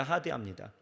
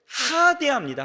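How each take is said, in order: First: 하대합니다 repeated low and soft; soft echo. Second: 하대합니다 said high and loud, falling hard; preacher punches 하대합니다 high and loud; emphatic. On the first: Preacher repeats to the flock, 하대합니다 low and soft. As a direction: let 하대합니다 fall away quietly. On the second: Preaching to the congregation, 하대합니다 punched high and loud. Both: Shown as a demonstration.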